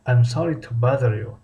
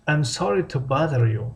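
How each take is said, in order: First: Said in the usual way. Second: Slow, careful model sentence for learners; slow model reading. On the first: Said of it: "same phrase repeated at normal pace". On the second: Shown as a demonstration. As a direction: spell it out slowly so students can copy. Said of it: "teacher models the phrase slowly".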